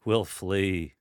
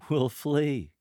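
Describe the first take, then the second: First: Loud, derisive answer with a hint of chuckle; dismissive, mocking. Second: High, loud, amused answer; lighthearted, laughing. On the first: Lector mocking the mere mention of sadness, dismissively. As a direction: brush it off, mocking the very idea. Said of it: "little bit of a chuckle in your voice, dismissively". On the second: Lector laughing at sorrow, high and lighthearted. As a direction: toss it out as a joke, pitched high. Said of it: "You're laughing at this. Your voice has a higher pitch". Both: Shown as a demonstration.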